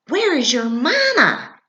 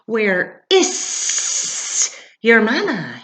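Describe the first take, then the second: First: It is said in a plain reading voice. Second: It is said in a hissing goose voice.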